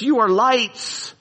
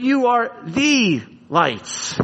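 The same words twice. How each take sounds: First: "You are lights" said slowly and evenly, no word stressed; the wrong version, set against "the lights"; plain reading. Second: "the" in "You are the lights" lifted and drawn out, slowly; stress on THE. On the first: Preacher giving the wrong reading, said evenly. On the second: Preacher correcting the verse, stress on "the". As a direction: lean hard on "the" in "the lights". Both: Shown as a demonstration. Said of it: "it's not just".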